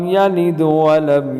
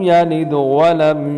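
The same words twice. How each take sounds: The two takes are said the same way.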